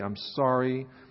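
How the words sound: It is growled in a forced way.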